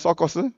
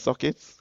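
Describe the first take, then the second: First: The middle vowel is an 'eo' sound. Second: The middle vowel is an 'i' sound.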